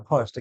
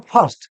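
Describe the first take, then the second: First: ফার্স্ট said as English "first", not "fast"; corrected pronunciation. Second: ফার্স্ট said as "fast", open "ah" vowel; common mispronunciation. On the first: Teacher correcting the common slip, properly pronounced. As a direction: softly correct it to ফার্স্ট with the "ur" vowel. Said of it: "না, ফার্স্ট". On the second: Teacher showing learners what many say, mispronounced. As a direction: mimic the common slip, ফার্স্ট sounding like "fast". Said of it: "অনেকে বলে ফার্স্ট". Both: Shown as a demonstration.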